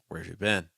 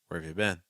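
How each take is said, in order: First: Consonants are weak and the vowels flow together. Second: Consonants are weak and the vowels flow together.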